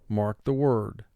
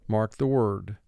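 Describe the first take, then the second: The two takes are said the same way.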